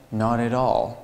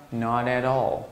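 Both takes have the same delivery.

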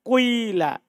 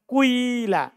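First: A slight u glides into an i sound. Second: The same.

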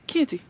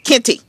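First: The name is said calmly. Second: The name is said angrily.

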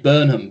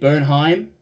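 First: The name ends with a short 'ham' sound. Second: The name ends with a 'heim' sound. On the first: The speaker calls it wrong. "I always say this wrong because I want to say Burnham" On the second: The speaker calls it right. "The Americans say Bernheim"

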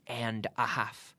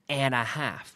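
First: The words are said separately and distinctly. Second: The words are run together smoothly. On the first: The speaker calls it wrong. "We don't say and a half" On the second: The speaker calls it right. "we always run those sounds together"

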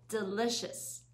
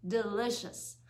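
The two takes are said the same way.

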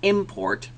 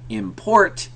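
First: The stress is on the first syllable. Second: The stress is on the second syllable. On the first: "if I emphasize the first one" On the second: "I'm stressing the second one now"

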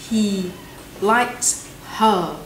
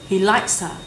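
First: The h in 'her' is clearly pronounced. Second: The h is dropped and 'likes' links into 'her'. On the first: The speaker calls it wrong. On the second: The speaker calls it right.

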